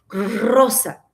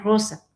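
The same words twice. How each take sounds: First: The R is strongly trilled. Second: The R is soft and light. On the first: "no dicen rosa" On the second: "dicen rosa"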